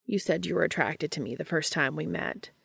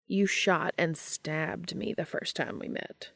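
First: Said in the usual way. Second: Slow, softer indignant protest; slow down and object, a little softer. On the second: Acted. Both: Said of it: "Cass protested".

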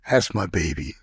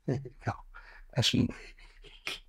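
First: Lower, tender voice for the dog; doting pet talk. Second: Breathy whisper to the dog; hushed doting whisper. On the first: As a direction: coo it low to your pet. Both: Real, not acted. Talking fondly to his dog.

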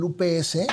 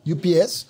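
First: "U P S" read as Spanish "u pe ese"; Spanish letter names. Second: "U P S" read as English "you pee ess"; English letter names. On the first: Spanish then English company name. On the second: Repeats company name in English. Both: Shown as a demonstration.

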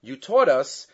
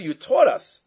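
First: Said in the usual way. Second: "taught" lifted and pressed, rising; stress on taught. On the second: Shown as a demonstration. Teacher stresses "taught" against "didn't teach". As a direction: push "taught" hard and high. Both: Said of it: "you didn't teach us".

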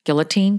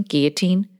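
First: Put-on "Guillotine" with the L pronounced, GILL-uh-teen; L sounded. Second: Put-on "Guillotine" without the L, GHEE-uh-teen; silent L, French-style. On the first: Host testing how to say "Guillotine", with a sounded L, questioning. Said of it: "guillotine or guillotine". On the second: Host testing how to say "Guillotine", L dropped to GHEE-uh-teen, questioning. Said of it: "you're fancy French". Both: Shown as a demonstration.

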